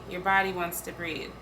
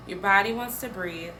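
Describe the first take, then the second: No difference in how they are said.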